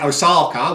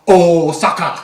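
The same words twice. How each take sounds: First: It is said with an ordinary English pronunciation. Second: It is said with an imitated Japanese pronunciation. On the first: This is how English speakers normally say it. "which is the way uh, English speaking people say it" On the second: It copies how the name is said in its own language. "he goes, Osaka. Like that"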